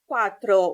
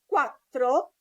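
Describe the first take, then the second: First: The t sound is short and single. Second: The t sound is held long and doubled. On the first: The speaker calls it wrong. "and not" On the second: The speaker calls it right. "We've got double T"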